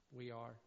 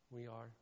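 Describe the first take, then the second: No difference in how they are said.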